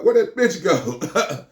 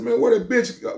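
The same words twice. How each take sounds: First: High, very slow drawn-out repeat; repeating the question slowly for effect. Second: High, quick puzzled ask; sudden wondering call; asking a friend where the woman went; puzzled question. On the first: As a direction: stretch each word out. Repeated slower. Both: Retold or imitated.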